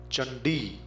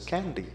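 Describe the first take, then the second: First: The word begins with a ch sound. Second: The word begins with a k sound. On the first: The speaker calls it right. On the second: The speaker calls it wrong.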